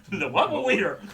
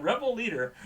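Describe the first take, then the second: First: "rebel leader" with W sounds for R and L; mock lisp. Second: Said in the usual way. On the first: Reader joking after tripping on words, mock lisp on "rebel leader". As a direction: say "rebel leader" as "webel weader", laughing. Laughing mock-mispronounced take.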